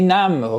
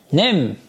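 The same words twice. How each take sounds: First: "نم" as nam, with short a; Persian pronunciation. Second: "نم" as nem, with e; Turkish pronunciation. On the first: Teacher translating for students, Persian "نم" as nam. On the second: Teacher modelling the Turkish word for students, "نم" as nem. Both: Shown as a demonstration. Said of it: "اینجا نم نخوندن اینا".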